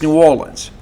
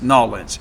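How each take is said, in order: First: The name is said in full with separate words. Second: The name is squeezed into one short clipped word. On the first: The speaker calls it right. "It's New Orleans" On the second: The speaker calls it wrong. "Nobody says Nolans"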